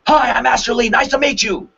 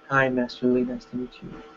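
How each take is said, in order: First: The voice sounds mad and angry. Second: The voice sounds weak, passive and scared. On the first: "mad, angry" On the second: "Weak, passive, scared"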